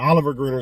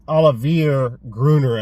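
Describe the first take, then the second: First: The first name is said as Oliver. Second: The first name is said as Olivier. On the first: The speaker calls it wrong. "I like saying Oliver Gruner. It's much easier" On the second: The speaker calls it right. "I think is the correct pronunciation"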